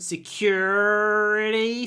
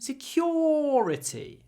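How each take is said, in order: First: It is said in an American accent. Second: It is said in a British accent. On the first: "American pronunciation" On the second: "British pronunciation"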